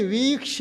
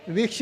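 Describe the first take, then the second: First: वीक्ष with a long held "vee"; correct long vowel. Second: वीक्ष with a short, quick "vi"; mispronunciation demo. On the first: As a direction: give more time to the "vee" in वीक्ष. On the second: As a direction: show the wrong reading, cutting the vowel short in वीक्ष. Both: Shown as a demonstration. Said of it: "वीप को ज़्यादा समय दो".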